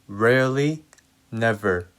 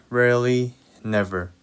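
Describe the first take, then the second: No difference in how they are said.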